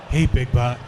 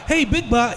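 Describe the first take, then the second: First: The voice sounds older and more settled. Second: The voice sounds young and excitable. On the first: The character has grown up. "He was more like" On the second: The character is still young and impetuous. "he wasn't so"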